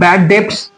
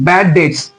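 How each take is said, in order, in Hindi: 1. 'debts' में b की ध्वनि उच्चारित होती है। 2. 'debts' में b की ध्वनि मौन होती है। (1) "बहुत सारे बच्चों को देखते हैं बैड डेट्स बोलता है" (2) "बी साइलेंट होता है, इसमें हम लोग उसको डेट्स बोलेंगे"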